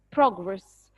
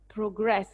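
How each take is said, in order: First: "progress" as PROG-ress, weight up front; noun stress. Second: "progress" as pro-GRESS, weight at the end; verb stress. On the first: Teacher warning class how the noun is said, first-syllable stress. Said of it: "if it's a noun, I'll say it as". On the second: Teacher showing class the verb, second-syllable stress. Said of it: "the verb is". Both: Shown as a demonstration.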